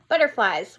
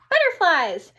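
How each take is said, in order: First: It is said in a plain, flat way. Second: It is said in an excited way.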